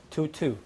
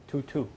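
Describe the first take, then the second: No difference in how they are said.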